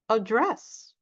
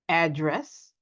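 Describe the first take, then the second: First: The stress is on the second syllable. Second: The stress is on the first syllable.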